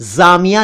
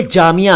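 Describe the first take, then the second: First: जामिया said as "zaamiya"; wrong z sound. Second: जामिया said as "jaamiya"; correct j sound. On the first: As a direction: begin जामिया with z instead of j. (जामिया का ग़लत उच्चारण, ज़ से) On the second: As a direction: begin जामिया with j, not z. (जामिया का सही उच्चारण, ज से) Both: Shown as a demonstration. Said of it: "जामिया नहीं है".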